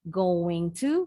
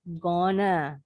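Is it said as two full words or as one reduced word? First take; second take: full; reduced. First: Both words are said fully and separately. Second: The words are blended into one reduced word.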